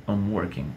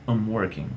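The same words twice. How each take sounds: Both takes have the same delivery.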